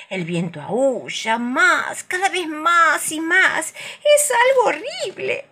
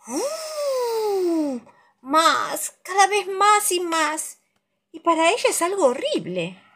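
First: High, slow eerie wail; howling wind voice. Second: High wailing ooh and slow rise; howling wind voice. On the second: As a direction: howl it like the wind. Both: A narrator's reading.

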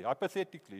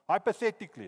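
First: Said in the usual way. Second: "Hypothetically" ko zor dekar bolo; stressed hypothetically. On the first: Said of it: "it's not true". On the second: Shown as a demonstration. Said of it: "it's not true, I'm not prophesying".

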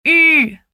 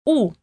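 First: "U" said with lips rounded for u but an i sound, louder; "U" as the French rounded vowel, lips pursed. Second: "u" said as a plain Portuguese u, lips rounded; "u" like the Portuguese vowel. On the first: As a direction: keep the pout of u and say i: "U". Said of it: "Boca de u com som de i". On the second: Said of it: "a gente vai falar u". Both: Shown as a demonstration.

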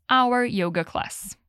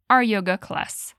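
First: "Our" pronounced "awer", two beats like hour, slow. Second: "Our" pronounced "ar", one syllable, slow model. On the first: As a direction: say "Our" like the word hour, slowly. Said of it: "você pode dizer". ("Our" pronunciado como "hour", devagar) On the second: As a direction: say "Our" like "ar", slowly. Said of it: "a professora disse er". ("Our" pronunciado como "ar", devagar) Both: Shown as a demonstration.

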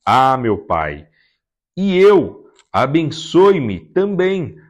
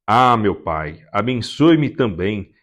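First: Higher, louder, slow pleading wail; a broken, drawn-out plea for a blessing; bitter anguished cry. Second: Understated tearful plea to the father. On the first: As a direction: cry out in bitter grief to the father. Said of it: "soltou um forte grito amargurado e suplicou". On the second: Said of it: "Esaú chorou em alta voz". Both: Acted.

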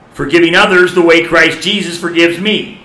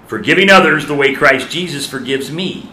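First: Higher and louder, driving the line home; emphatic repeat. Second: Said in the usual way. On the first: Shown as a demonstration. Preacher repeating to congregation, louder emphatic restatement. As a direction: preach it harder the second time. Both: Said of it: "preacher repeats the point".

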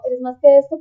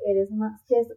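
First: Eres más que esto said louder, pressing on que; stress on más que esto. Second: Said in the usual way. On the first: Shown as a demonstration. To the migrant listener, a louder insisting repeat. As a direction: insist on it, louder the second time. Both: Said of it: "y sin embargo".

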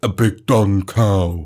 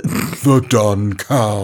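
First: Slow drawl. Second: Stretched-out silly drawl; very slow. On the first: Drawn-out name. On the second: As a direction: draw every word out. Slower drawn-out repeat. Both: Pretend.

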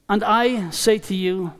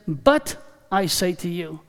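First: Said in the usual way. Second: "But" weighted, dropped low and firm; "But" set apart as the key word; stress on But. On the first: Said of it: "not the words". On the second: Shown as a demonstration. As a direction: lean hard on "But" to make the contrast. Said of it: "but he says".

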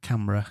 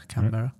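First: Canberra squeezed to CAN-bruh; two-syllable pronunciation. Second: Canberra opened out to can-BERR-a; three-syllable pronunciation. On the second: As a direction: say Canberra with a full "berr" in the middle. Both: Shown as a demonstration. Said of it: "I don't know how you say it".

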